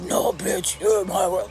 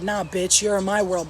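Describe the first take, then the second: First: It is said in a scary demonic voice. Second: It is said in a normal voice.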